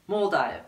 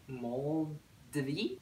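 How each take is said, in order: First: Said in the usual way. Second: "Moldive" drawn out softly as "mol... dvee?", rising; unsure pronunciation. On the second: Real, not acted. Vlogger guessing at a shop name, unsure, rising "mol-dvee?". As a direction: puzzle out "Moldive" as a hushed, slow "mol-dvee?".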